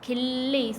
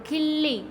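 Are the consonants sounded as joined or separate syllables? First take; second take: joined; joined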